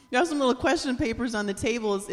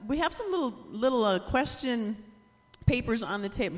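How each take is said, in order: First: Said in the usual way. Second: Talking with gum in mouth; chewing gum. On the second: Real, not acted. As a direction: speak while chewing gum. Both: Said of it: "Excuse me, I'm chewing gum".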